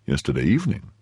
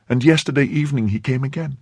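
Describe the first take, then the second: First: YESTERDAY EVENING as a question in a man's voice; questioning echo. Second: Put-on high young woman's statement; anxious maid. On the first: Chevalier querying the maid, "Yesterday evening" rising in question. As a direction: repeat "Yesterday evening" with a rise at the end. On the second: Maid reporting the man's return, high and anxious. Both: A narrator's reading.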